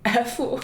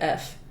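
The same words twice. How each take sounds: First: The letter is said with a Chinese-style pronunciation. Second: The letter is said with a plain English pronunciation. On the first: "in Chinese that'd be like F" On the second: "F in English is like F"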